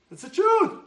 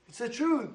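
First: High, loud declaration; emphatic. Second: Said in the usual way. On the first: Real, not acted. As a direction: proclaim it as truth. Emphatic repeat.

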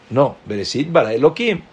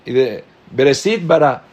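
First: "Bereshit bara Elohim" in one unbroken phrase; full phrasing. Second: "Bereshit bara" broken off wrongly; wrong phrasing. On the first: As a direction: run on through to "Elohim" and rise. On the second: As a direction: stop after "bara" as if "Bereshit bara" were the whole phrase. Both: Shown as a demonstration. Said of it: "y no dices Bereshit".

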